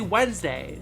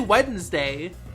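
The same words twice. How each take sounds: First: The D sound in the word is silent. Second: The D sound in the word is pronounced. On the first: The speaker calls it right. "You say" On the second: The speaker calls it wrong. "you don't say"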